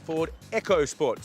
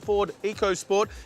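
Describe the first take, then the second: First: The first part sounds like the word 'echo'. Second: The first part does not sound like 'echo'. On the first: The speaker calls it right. "It's actually pronounced the Ford EcoSport. ... make sure you get the Echo right" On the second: The speaker calls it wrong. "this here is not called the Ford EcoSport"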